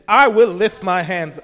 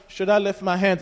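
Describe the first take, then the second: First: Loud, resolute vow; firm declaration. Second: Unsure, half-hearted asking; hesitant question. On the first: Preacher shows the congregation true praise, firmly resolute. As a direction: declare it with full conviction. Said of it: "means it's not like". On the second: Preacher mimics a timid worshipper to the congregation, hesitant. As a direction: ask it tentatively, without conviction. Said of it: "it's not like". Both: Shown as a demonstration.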